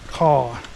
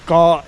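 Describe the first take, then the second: First: The word begins with a K sound. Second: The word begins with a G sound. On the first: The speaker calls it wrong. "not caw" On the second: The speaker calls it right. "the word island starts with the G sound"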